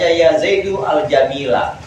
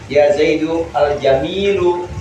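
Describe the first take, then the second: First: The final word ends with an 'a' vowel. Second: The final word ends with a 'u' vowel. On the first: The adjective follows the noun's underlying accusative position. "mengikuti Zaid dalam segi mahal nasabnya" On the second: The adjective follows the noun's built-in nominative form. "Kalau al jamilu berarti mengikuti Zaid dalam segi mabni rofanya"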